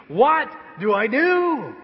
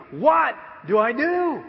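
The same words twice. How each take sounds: First: Much higher, loud and slow; helpless cry. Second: Panicked cry. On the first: Pastor admitting to the church he's still lost, a loud slow cry. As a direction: stretch it out, comically lost. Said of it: "I'm still asking". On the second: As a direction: throw it out like a helpless new parent. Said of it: "I mean, like, literally". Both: Acted.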